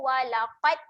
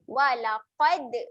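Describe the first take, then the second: First: The final d stops flat with no bounce. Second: The final d has a slight bounce. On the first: The speaker calls it wrong. "Kalau kita tak lantun" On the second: The speaker calls it right. "lantunkan sedikit"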